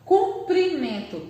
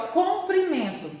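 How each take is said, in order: First: Comprimento said slowly as "cum-pri-men-to"; Comprimento, slow, first vowel changed to U. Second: Comprimento said carefully with an O in "com"; comprimento, opening syllable rounded as "com"; clear O vowel. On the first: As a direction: stretch out Comprimento with U in the first syllable. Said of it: "muda apenas uma vogal". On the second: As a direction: sound the first vowel of comprimento as O, not U. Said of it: "com O". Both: Shown as a demonstration.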